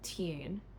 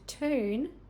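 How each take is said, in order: First: A light y sound comes between t and vowel. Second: The vowel follows the t with no y sound.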